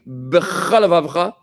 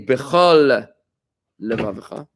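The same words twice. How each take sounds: First: The words run together with no pause between. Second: There is a pause between the two words. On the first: The two shared sounds merge into one. The speaker calls it wrong. "in one quick sweep" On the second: Each word is pronounced fully and separately. The speaker calls it right. "if you stop between the words"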